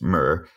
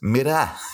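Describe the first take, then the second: First: The word is said in an American accent. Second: The word is said in a Liverpool accent. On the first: "In American, it's mirror" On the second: "the main actor is from Liverpool and says"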